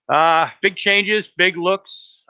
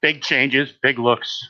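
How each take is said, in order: First: "big changes" stretched slow and pitched up high; hammed-up slow high-pitched teaser; drawn-out, high showman repeat. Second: Said in the usual way. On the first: Shown as a demonstration. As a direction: say it again like a grand slow announcement, much higher.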